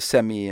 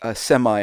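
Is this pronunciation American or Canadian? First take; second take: Canadian; American. First: It is said in a Canadian way. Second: It is said in a general American way. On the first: "get rid of their Canadianisms" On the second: "they learn to say semi instead of"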